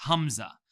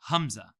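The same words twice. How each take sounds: The two takes are said the same way.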